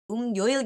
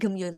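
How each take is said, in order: First: The first vowel is said as 'eu'. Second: The first vowel is said as plain 'e'. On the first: "Kenapa kok Gemyoil nggak Geumyoil gitu?" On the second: "Cuma waktu dibacanya itu e doang gitu"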